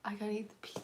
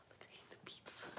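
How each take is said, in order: First: Said in the usual way. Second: Whispering. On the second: Shown as a demonstration. Repeated line, whispered take.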